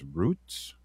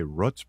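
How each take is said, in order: First: "roots" with a long, drawn-out "oo"; corrected pronunciation. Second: "roots" with the short vowel of "foot"; habitual pronunciation. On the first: Host corrects the program name, "roots" with a long slow "oo". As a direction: stretch "roots" to rhyme with "boots". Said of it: "but it's roots". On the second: Host admits the habitual way, "roots" with a short vowel. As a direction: say "roots" to rhyme with "puts". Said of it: "I always say roots". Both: Shown as a demonstration.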